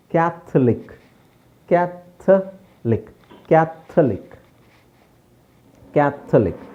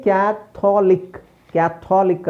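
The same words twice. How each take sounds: First: ಕ್ಯಾಥಲಿಕ್ split as kyat, th, lik, no o; correct pronunciation. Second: ಕ್ಯಾಥೋಲಿಕ್ as kya-THO-lik with long o; wrong pronunciation. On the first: Teacher modelling the silent O, correct pronunciation. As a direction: drop the o in ಕ್ಯಾಥಲಿಕ್, spacing the syllables. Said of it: "ಓ silent ಮಾಡಿ". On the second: Teacher showing what is wrong, wrong pronunciation. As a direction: sound the o fully in ಕ್ಯಾಥೋಲಿಕ್. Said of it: "ಅಲ್ಲ". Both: Shown as a demonstration.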